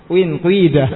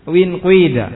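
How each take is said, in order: No difference in how they are said.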